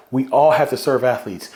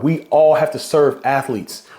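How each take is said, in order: First: Said in the usual way. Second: "all" drawn out and pushed, the whole line slow and firm; stress on ALL. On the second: Real, not acted. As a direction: lean hard on "all", take it slow. Emphatic closing repeat.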